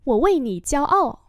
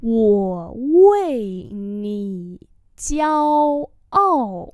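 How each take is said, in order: First: Said in the usual way. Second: Wo wei ni jiao ao very drawn out; slow demonstration. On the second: Shown as a demonstration. Teacher repeats a sentence for learners, very slowly. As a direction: hold every syllable of Wo wei ni jiao ao.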